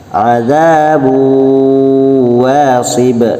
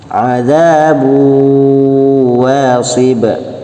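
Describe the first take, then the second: No difference in how they are said.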